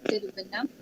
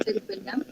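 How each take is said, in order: Both takes have the same delivery.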